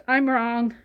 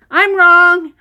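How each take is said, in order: First: Said in the usual way. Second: Loud and emphatic; loud admission. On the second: Real, not acted. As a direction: declare it out loud, owning the mistake. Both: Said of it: "I admit when I'm wrong".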